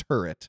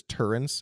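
First: "turret" said TUR-et, without any N; correct pronunciation. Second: "turrets" said as TUR-ents; mispronunciation with N. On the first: Shown as a demonstration. Correcting Overwatch players' word, "turret" with no N. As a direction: say "turret" cleanly with no N before the t. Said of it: "The word is just turret". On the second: Retold or imitated. Quoting how many people say it, "turrets" with an added N. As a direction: add an N before the final ts of "turrets". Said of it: "where are you getting that N from".

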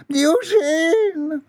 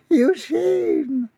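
First: Very high, wailing call; mother's cry. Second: Falsetto name, held back; mother's hushing call. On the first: Mother calls her son from the bush, high wailing cry. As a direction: stretch the name in falsetto. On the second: Mother shushes her son in the dark, small high call. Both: A narrator's reading.

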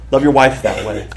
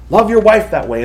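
First: Said in the usual way. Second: "your" lifted higher on the repeat, pressing the point; urgent repeat. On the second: Shown as a demonstration. Pastor pressing husbands, "your" stressed higher. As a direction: lean on "your" and say it again higher.

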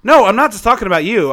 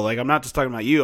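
First: High, loud insistent "no"; emphatic denial. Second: Said in the usual way. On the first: Real, not acted. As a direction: push back hard on "no", loud and high.

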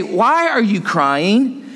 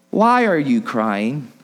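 First: "Why are you crying" drawn out at full preaching voice; emphatic question. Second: Low, slow, tender question; gentle question. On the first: Preacher repeating the angels' puzzling question, "Why are you crying", slow and emphatic. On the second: Angels asking weeping Mary at the tomb, gently. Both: Acted.

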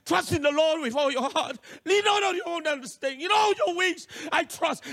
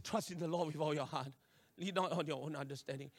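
First: Higher, impassioned scripture declaration; fervent recitation. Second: Low, soft scripture murmur; subdued recitation. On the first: Nervous learner preaching scripture to himself, fervent. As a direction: preach it to yourself with rising urgency. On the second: Learner steadying himself with scripture before test, subdued. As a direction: recite it quietly to steady yourself. Calmly reciting instead of wailing. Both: Retold or imitated.

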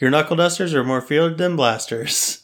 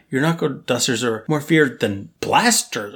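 First: Wooden read stressing "dusters", rising end; bad acting. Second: "feared" stressed and falling. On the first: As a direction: deliver it stiffly, hitting "dusters". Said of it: "she just delivered it like". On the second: Shown as a demonstration. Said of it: "it should have been like".

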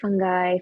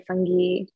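First: "fungi" said as FUN-guy; FUN-guy variant. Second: "fungi" said as FUN-ghee; FUN-ghee variant. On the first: Guest listing different ways for host, "fungi" as FUN-guy. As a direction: say "fungi" with a hard g, rhyming its end with "guy". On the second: Guest listing different ways for host, "fungi" as FUN-ghee. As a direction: say "fungi" with a hard g and an "ee" ending. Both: Shown as a demonstration. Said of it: "say it different ways".

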